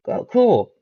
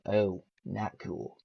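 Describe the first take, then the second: First: High, bright excited "Oh, cool". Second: Soft, slow letdown "Oh, not cool"; disappointed. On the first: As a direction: chirp it with sudden high delight. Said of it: "and it's like". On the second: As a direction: sink into quiet dismay. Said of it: "I'm like". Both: Retold or imitated.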